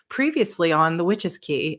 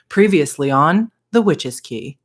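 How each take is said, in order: First: It is said in her normal voice. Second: It is said in a dramatic TV-announcer voice.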